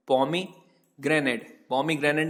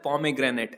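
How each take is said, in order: First: Pomegranate stretched out very slowly, each syllable separate, falling at the end; very slow model word. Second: Said in the usual way. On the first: Shown as a demonstration. Teacher models the English word pomegranate for students, very slow and clear. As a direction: spell out pomegranate by sound, very slowly. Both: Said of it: "बोला जाता है pomegranate".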